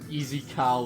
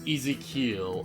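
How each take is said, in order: First: The name ends with a sound like 'Kyle'. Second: The name ends with a sound like 'kee-ul'. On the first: The speaker calls it wrong. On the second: The speaker calls it right.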